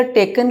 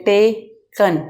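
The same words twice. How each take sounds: First: Said in the usual way. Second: टेकन broken as टे-कन with a small break; split into syllables. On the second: Shown as a demonstration. Teacher showing class six that टेकन has two syllables, split into beats. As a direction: say टेकन in two separate beats, falling at the end. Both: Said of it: "इसको हम बगैर रुके नहीं अदा कर सकते".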